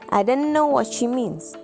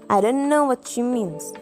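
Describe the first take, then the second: First: 'I don't know' is squeezed into one short word. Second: 'I don't know' is squeezed into one short word.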